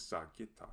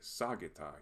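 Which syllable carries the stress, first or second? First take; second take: second; first. First: The stress falls on the second syllable. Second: The stress falls on the first syllable. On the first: The speaker calls it right. "the correct pronunciation is" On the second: The speaker calls it wrong. "We might be tempted to say"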